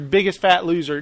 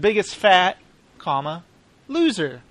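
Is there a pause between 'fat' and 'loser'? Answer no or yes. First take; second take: no; yes. First: The words run together without a pause. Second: There is a pause before 'loser'. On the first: They are fat people who are losers. The speaker calls it wrong. "if you say it wrong" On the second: They lost the most fat. The speaker calls it right. "They lost a lot of fat. They're not fat losers"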